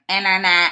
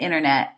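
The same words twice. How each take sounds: First: Each syllable is pronounced clearly and separately. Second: The syllables are clipped and run together. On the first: "they say their syllables very nicely" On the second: "I'd be like, the internet"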